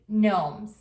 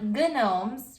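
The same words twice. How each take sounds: First: The word begins with an N sound. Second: The word begins with a hard G sound. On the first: The speaker calls it right. "The G is silent. You just say gnomes" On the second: The speaker calls it wrong. "So it's not gnomes"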